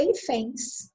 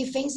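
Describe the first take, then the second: First: "hífens" stressed on the last syllable, i-FÉNS; misplaced stress. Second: "hífens" stressed on the first syllable, HÍ-fens. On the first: Teacher showing what an accent would do, final stress on "hífens". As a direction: land on the end of "hífens". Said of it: "Se tivesse acento". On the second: Teacher reading the usual word, first-syllable stress on "hífens". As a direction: lean on the start of "hífens". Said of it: "Porque não precisa". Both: Shown as a demonstration.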